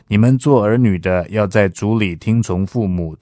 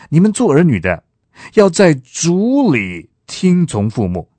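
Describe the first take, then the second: First: 在主里 carries no special emphasis. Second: 在主里 is emphasized over the rest. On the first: "这是一种读法。" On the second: "我强调的是在主里听从父母"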